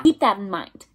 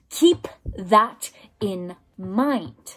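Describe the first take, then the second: First: Said in the usual way. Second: Very slow, every word set apart; drawn out, each word weighted; slow emphatic repeat. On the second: Real, not acted. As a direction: drive it home word by word.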